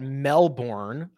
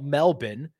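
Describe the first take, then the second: First: It is said in a brash American accent. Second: It is said in a plain local accent. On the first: The speaker calls it wrong. "like a you know, raucous American" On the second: The speaker calls it right. "I would call it Melbourne"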